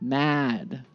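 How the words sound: The vowel is long and loud. "American style, we have a longer ah, very loud"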